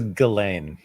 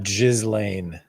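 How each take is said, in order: First: The s sound in the name is silent. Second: The s sound in the name is pronounced. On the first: The speaker calls it right. "Her her name is Ghislaine" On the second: The speaker calls it wrong. "it's not Ghislaine"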